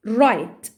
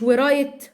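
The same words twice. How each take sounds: First: "right" starting straight on the R; "right" pronounced correctly, W left silent. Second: "ورايت" with an audible "wa" before the R; "ورايت" opened on a W syllable; W wrongly sounded. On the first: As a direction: say "right" with no W sound before the R. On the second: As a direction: mispronounce it as "ورايت", voicing the silent W. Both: Shown as a demonstration. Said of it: "مش ورايت".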